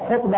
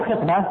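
First: "خطبة" said khutba, with a short u; ضمة على الخاء. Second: "خطبة" said khitba, with a short i; كسرة تحت الخاء. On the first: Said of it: "هذه بضم الخاء". ("خطبة" بضم الخاء) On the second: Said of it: "أما بالكسر". ("خطبة" بكسر الخاء) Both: Shown as a demonstration.

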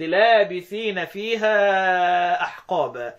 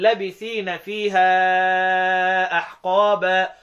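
First: لابثين recited with long first aa, laabithina; slow chant, stretch the alif in لابثين; long madd reading. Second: لابثين recited with short first a, labithina; slow chant, no madd on the lam of لابثين; Hamza's shortened reading. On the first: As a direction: hold the lam's vowel long in لابثين. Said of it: "وبقية القراء بالمد". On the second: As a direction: cut the alif short in لابثين. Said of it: "يبقى أنا عندي حمزة يقول". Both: Shown as a demonstration.

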